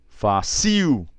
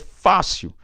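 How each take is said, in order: First: The stress is on the last syllable. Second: The stress is on the first syllable. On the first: The speaker calls it wrong. "Tô chamando do jeito que ela veio" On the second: The speaker calls it right.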